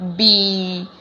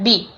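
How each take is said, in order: First: The vowel is drawn out long. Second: The vowel is short and flat. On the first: The speaker calls it right. "It will be B. And there have to be long" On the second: The speaker calls it wrong. "many of the people pronounce at B"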